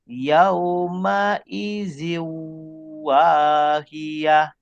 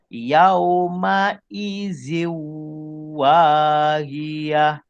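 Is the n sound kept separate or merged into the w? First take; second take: merged; merged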